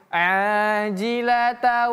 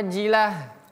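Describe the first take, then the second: First: The word ends with a t sound. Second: The word ends with an h sound. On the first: The reading continues into the next word. "kalau kita sambung bacaannya ... menjadi ta" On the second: The reading stops after this word. "kalau kita hentikan bacaannya, maka ajilah"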